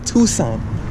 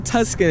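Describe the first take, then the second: First: No C sound is heard in the middle. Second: A hard C sound is heard in the middle. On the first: The speaker calls it right. "it's Tucson. The C is silent" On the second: The speaker calls it wrong. "don't say Tuscan"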